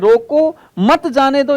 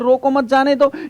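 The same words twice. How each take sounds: First: There is a pause after the first word. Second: There is a pause after the second word.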